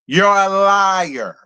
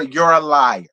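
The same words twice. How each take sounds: First: Each word drawn out slowly; slow accusation. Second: Said in the usual way. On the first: Real, not acted. Vlogger calling Lisa a liar, slow and deliberate. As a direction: spell out "You're a liar" slowly.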